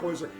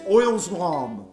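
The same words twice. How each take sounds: First: The second part sounds like the word 'slam'. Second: The second part sounds like the word 'Islam'. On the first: The speaker calls it wrong. "I kept calling it Oil Slam" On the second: The speaker calls it right. "like Islam"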